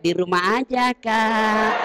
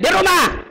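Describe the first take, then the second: First: It is soft, sultry and drawn out. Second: It is short, firm and businesslike.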